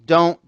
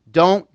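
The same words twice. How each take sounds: The two takes are said the same way.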